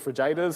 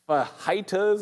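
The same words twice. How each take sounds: First: The word is said in a comic mispronunciation. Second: The word is said with its usual pronunciation.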